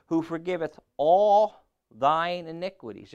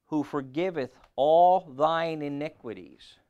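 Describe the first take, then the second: First: Loud raised proclamation of the verse; scripture reading, higher. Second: Loud, slow proclamation; scripture reading. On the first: Preacher repeating the verse to the congregation, raised and loud. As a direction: lift it higher and call it out. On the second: Preacher reading verse three, slow loud proclamation. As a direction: draw out the verse loudly and slowly. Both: Acted.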